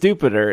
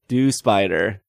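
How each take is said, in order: First: The name is said to rhyme with Jupiter. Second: The name is said like dew plus spider. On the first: "It's supposed to rhyme with Jupiter" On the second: "do plus spider"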